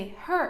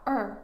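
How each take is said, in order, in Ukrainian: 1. Слово починається зі звуку «h». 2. Слово починається без звуку «h». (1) "Не her" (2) "дропати H"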